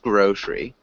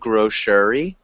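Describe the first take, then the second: First: The middle vowel is dropped, giving two syllables. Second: The middle vowel is pronounced as a full syllable. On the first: The speaker calls it right. "that middle E is silent" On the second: The speaker calls it wrong. "Instead of grocery"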